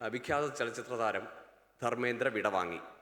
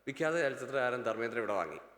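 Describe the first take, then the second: First: The word endings are spoken clearly and fully. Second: The word endings are rushed and lazily slurred.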